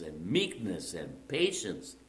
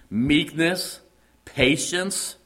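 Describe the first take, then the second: First: "meekness" and "patience" dropped low and much softer, slowly falling; softly falling list. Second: Each virtue lifted high with a rising tune; rising list. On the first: Preacher repeating the virtues to the congregation, soft and falling. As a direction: let each word settle gently. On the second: Preacher naming virtues to the congregation, rising and emphatic. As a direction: call out each word like a summons. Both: Acted.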